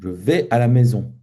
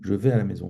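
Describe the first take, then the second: First: The sentence has strong stress on 'maison'. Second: The sentence is said evenly, without extra stress. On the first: The listener missed the answer the first time. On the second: A plain answer to the question.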